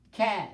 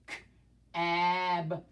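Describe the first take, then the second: First: Cab said as one quick word; blended. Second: K-ab split into separate sounds; sounded out. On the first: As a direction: blend cab together smoothly. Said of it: "Read it fast". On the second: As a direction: tap out K-ab sound by sound. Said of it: "Tap it out". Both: Shown as a demonstration.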